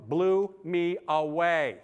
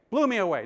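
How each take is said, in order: First: Drawn out slowly, awed; slow amazement. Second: "Blew" punched, quicker and firmer; emphatic repeat. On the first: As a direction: let each word hang in wonder. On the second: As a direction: hit "Blew" hard the second time. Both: Real, not acted.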